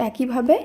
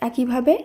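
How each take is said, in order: The two takes are said the same way.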